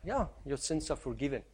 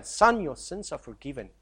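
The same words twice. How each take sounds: First: Casual, throwaway "Yeah, your sins are forgiven", dropped quietly; breezy, careless forgiveness; offhand. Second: Soft, weighty "Son, your sins are forgiven", each word given its due; tender, grave forgiveness; solemn. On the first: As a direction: toss it off as if it costs nothing. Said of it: "For us, it's easy to say". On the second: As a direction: speak it as words that cost a life. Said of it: "For Jesus to say for this young man". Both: Shown as a demonstration.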